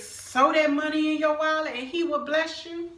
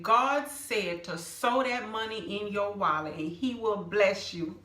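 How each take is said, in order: First: Mock church lady. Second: Said in the usual way. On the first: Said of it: "She don't know my situation and say". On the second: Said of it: "she said".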